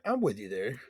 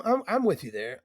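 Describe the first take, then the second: First: Soft, lower repeat; quiet echo. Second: Said in the usual way. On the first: Acted. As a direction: murmur it back.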